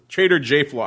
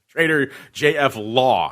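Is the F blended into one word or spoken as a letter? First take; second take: blended; letter. First: The F blends into one word, flaw. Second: The F is spoken as a letter before law. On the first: The speaker calls it wrong. "it's not Trader J Flaw" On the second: The speaker calls it right. "that is the appropriate pronunciation"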